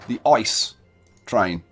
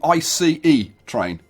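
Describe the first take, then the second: First: ICE is said as a single word. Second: ICE is spelled out as three letters. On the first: "I used an acronym" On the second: "instead of an initialism"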